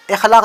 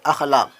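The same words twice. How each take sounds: First: इखलाक with a short i sound at the start; wrong reading. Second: अखलाक with an open a sound at the start; correct reading. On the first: Teacher showing the wrong reading, i-khlaaq. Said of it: "इखलाक नहीं होता है". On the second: Teacher giving the correct reading, a-khlaaq. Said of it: "अखलाक होता है". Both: Shown as a demonstration.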